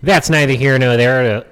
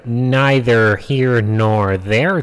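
First: Said in the usual way. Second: Very slow, drawn-out delivery. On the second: Shown as a demonstration. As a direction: stretch every word of neither here nor there out slowly. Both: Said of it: "if I want to slow down my speaking".

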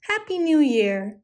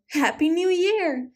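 First: Called out. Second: Much higher answering call, falling at the end; sing-song high reply. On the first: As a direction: cheer it across the snow. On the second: Animals answering each other, high gleeful call. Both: A narrator's reading. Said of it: "they called to each other".

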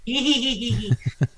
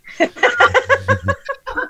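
First: Put-on cackling old hag laugh; witch laugh. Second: High eerie hag cackle; witch laugh. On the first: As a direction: cackle like a witch, not quite there. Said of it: "that was my witch laugh". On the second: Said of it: "That's better". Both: Shown as a demonstration.

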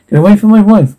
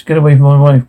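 First: Desperate shout. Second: Said in the usual way. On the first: Acted. Husband defends wife from captors.

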